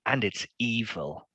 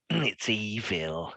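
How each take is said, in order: First: Slow, mildly creepy delivery; a touch of menace, drawn out. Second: Very slow, drawn-out creepy delivery; hammed-up creepy menace, lingering on every syllable; really creepy. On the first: Acted. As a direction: say it slowly to unsettle them. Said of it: "he says, in a really creepy way". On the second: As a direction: stretch each word out eerily. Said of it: "in a really creepy way".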